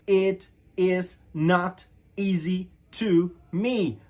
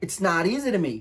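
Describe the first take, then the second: First: Each word is said separately and fully. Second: The words run together in one linked flow. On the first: "if you read this sentence, it says" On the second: "when you pronounce all together"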